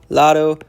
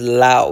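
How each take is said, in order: First: The d sound in the middle is pronounced. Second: The d sound in the middle is dropped.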